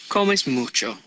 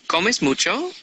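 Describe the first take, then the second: First: The voice falls at the end. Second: The voice rises at the end.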